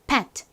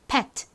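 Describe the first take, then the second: First: It is said slowly with the final t released. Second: The same.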